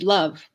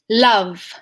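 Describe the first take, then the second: First: The L is short and pushed off quickly. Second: The L is drawn out slightly longer. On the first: The speaker calls it wrong. "It's not like" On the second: The speaker calls it right. "the sound at the beginning of words onsets with with this British L is like"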